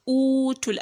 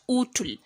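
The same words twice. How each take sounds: First: The vowel is held long. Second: The vowel is kept short. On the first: The speaker calls it right. "we say utul" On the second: The speaker calls it wrong. "not just utul"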